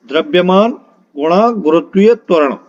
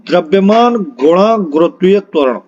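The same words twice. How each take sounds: The two takes are said the same way.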